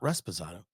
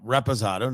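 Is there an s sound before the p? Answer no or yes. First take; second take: yes; no. First: The word has an extra s before the p. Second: The word has no s before the p. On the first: The speaker calls it wrong. "I was pronouncing it wrong" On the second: The speaker calls it right. "Reposado, not"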